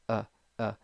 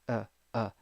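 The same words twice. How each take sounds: Both takes have the same delivery.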